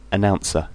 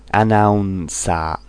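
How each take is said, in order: First: Said in the usual way. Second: "Announcer" ending in a full a, no r; "Announcer" said the Japanese way, anaunsaa; "Announcer" as a katakana word; Japanese loanword style. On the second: Shown as a demonstration. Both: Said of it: "Japanese English".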